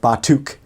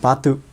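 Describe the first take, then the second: First: The final K is clearly pronounced. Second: The final K is barely heard. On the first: The speaker calls it wrong. "it's like too much, too much" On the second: The speaker calls it right. "They'll just say batu"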